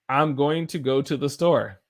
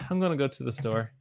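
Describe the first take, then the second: First: Going to is said in full, two clear words. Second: Going to is reduced and blended into gonna. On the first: "going to" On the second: "gonna kind of has a way that flows about it"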